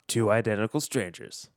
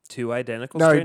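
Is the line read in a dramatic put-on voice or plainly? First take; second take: dramatic; plainly. First: It is read in a dramatic movie-trailer voice. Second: It is read in a plain, ordinary voice. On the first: The speaker calls it right. "Do it in the voice" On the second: The speaker calls it wrong. "No, do it better"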